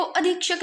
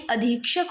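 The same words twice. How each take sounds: First: "अधीक्षक" with short i after dh; rejected pronunciation. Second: "अधीक्षक" with long ii; corrected pronunciation. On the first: Teacher showing the error, "अधीक्षक" with short dhi. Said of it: "अधीक्षक नहीं". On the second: Teacher giving the correction, "अधीक्षक" with long dhii. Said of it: "धी पे बड़ी मात्रा". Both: Shown as a demonstration.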